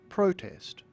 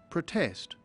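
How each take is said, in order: First: The stress is on the first syllable. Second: The stress is on the second syllable. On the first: It is used as a noun. "Protest camp is a compound noun, and it's pronounced protest" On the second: It is used as a verb. "But the verb is usually pronounced protest"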